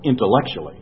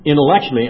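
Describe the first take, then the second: First: Said in the usual way. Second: Intellectually louder and higher, punched; stressed. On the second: Real, not acted. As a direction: hit Intellectually hard. Repeated word for emphasis.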